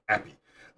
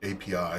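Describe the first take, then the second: First: It is pronounced as a single word, appy. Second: It is spelled out as three separate letters. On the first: "trying to get myself to pronounce it instead" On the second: "they spell it out"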